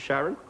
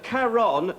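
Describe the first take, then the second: First: The name begins with a soft SH sound. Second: The name begins with a hard K sound. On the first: The speaker calls it wrong. "most people pronounce it Sharon. Which really P I S S is me off" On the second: The speaker calls it right. "that's Caron, C H A R O N"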